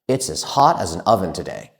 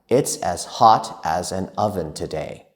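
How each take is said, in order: First: It is spoken at a very fast pace. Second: It is spoken at a faster pace. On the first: "even faster"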